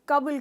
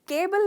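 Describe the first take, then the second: First: The first vowel is a short 'uh'. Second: The first vowel is a long 'ay'. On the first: The speaker calls it right. "हम कबुल कहते हैं" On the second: The speaker calls it wrong. "केबल नहीं कहते"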